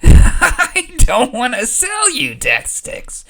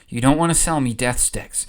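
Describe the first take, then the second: First: It is screamed like a question, with laughter. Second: It is said in a stern, determined voice.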